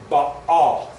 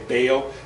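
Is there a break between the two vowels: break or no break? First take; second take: break; no break. First: A short break separates the two vowels. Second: The vowels run together without a break. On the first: The speaker calls it right. "that pause there between the two A's is the letter Ayin" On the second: The speaker calls it wrong. "usually people pronounce it Baal"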